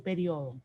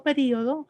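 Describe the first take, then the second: First: "periodo" as pe-RIO-do, stress on the o; diphthong pronunciation. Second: "periodo" with stressed í, pe-RÍ-o-do; hiatus pronunciation. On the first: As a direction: glide the io of "periodo" into one syllable. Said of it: "hoy en día se puede decir". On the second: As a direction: say "periodo" in four syllables, stressing the i. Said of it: "ahí estaría marcando el hiato". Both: Shown as a demonstration.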